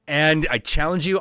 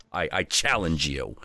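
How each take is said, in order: First: Higher and a touch louder, and you challenge mean it; bolder challenge. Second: Said in the usual way. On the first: Acted. Little Viking challenging the Northwind again, bolder and higher. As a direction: repeat the challenge with fresh nerve, pitched up.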